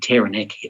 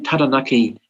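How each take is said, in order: First: It is said with English vowels and rhythm. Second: It is said with Māori vowels and rhythm. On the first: "at the church or Rotary Club" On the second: "on the marae"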